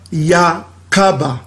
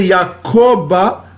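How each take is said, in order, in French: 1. La voyelle après le k est un son « a ». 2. La voyelle après le k est un son « o ». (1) "On va dire Yakaba" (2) "Au lieu de dire Yakoba"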